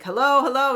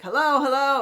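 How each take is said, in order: First: Hello called out higher and louder into a bad line; straining to be heard on a call; calling hello down the phone. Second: Hello called out higher and louder, echoing back; calling hello down the phone. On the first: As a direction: shout hello to get through. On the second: Retold or imitated. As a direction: shout hello back down the line.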